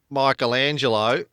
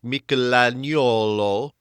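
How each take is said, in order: First: The name has its usual present-day pronunciation. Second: The name has its sixteenth-century Tuscan pronunciation. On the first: This is how people say it today. "instead of Michelangelo, as we tend to pronounce it" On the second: This is how it sounded in its own time. "it would have sounded to modern ears like Michelangelo"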